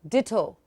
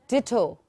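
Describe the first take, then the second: The two takes are said the same way.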